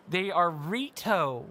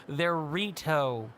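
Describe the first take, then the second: First: "are" stressed, slow and firm. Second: "Rito" said slowly as REE-toe; slow correction. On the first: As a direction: lean hard on "are" in "They are Rito". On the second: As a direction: spell out "Rito" slowly, patiently. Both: Shown as a demonstration. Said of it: "It's not hard".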